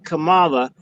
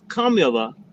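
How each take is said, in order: First: The name has an Americanized pronunciation. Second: The name has its original Indian pronunciation. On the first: The speaker calls it wrong. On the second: This is her real name as it should be said. The speaker calls it right. "the proper pronunciation is Kamala"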